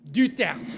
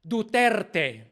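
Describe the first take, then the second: First: The name is said with French pronunciation. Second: The name is said with Filipino pronunciation. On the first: "in the native French way" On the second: "the Spanish Filipino way, which Filipinos do"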